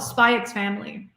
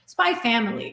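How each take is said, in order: First: The letter X is spoken between the words. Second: The letter X is left out between the words. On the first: The speaker calls it wrong. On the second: The speaker calls it right.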